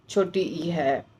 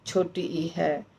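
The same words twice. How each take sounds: The two takes are said the same way.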